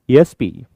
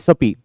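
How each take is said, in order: First: It is spoken as separate letters. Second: It is run together as one word. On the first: The speaker calls it right. "A sound is there" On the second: The speaker calls it wrong. "We never say SAPI"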